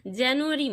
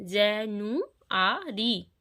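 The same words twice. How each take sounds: First: Said in the usual way. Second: "জেনুয়ারি" slowly split as je-nu-a-ri; syllable by syllable. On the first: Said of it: "এই জানুয়ারি কথাটিকে আমরা যদি". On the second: Shown as a demonstration. Teacher showing pupils how "জেনুয়ারি" divides, syllable by syllable. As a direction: stretch and separate each syllable of "জেনুয়ারি". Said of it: "syllable ভাগ করেই পড়ি".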